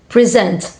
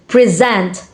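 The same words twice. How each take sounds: No difference in how they are said.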